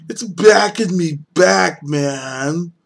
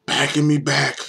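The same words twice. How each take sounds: First: High, loud, slow emphatic exclaim. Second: Said in the usual way. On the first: Real, not acted. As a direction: drag it out loudly in shock. Beer taste hits again.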